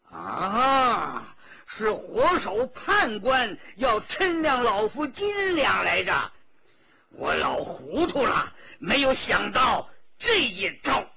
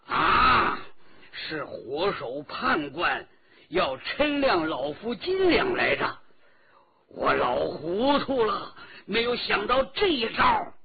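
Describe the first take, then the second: First: A sudden loud cry of realization, slightly higher; loud exclamation. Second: Louder, higher loud cry of realization; loud exclamation. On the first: Old escort chief realizes the plot, loud startled cry. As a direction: blurt it out loud as the old hero sees the trap. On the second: Old escort chief sees through the scheme, loud cry. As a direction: shout it as the penny drops, rising at the end. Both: A narrator's reading. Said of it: "大声地说".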